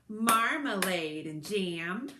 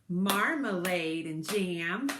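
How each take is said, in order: No difference in how they are said.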